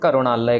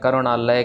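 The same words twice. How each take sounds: First: The word begins with a g sound. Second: The word begins with a k sound. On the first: The speaker calls it wrong. "हम कग्गा यहाँ पे लगा देते हैं" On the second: The speaker calls it right. "कक्के को कक्के के साथ ही कहना है"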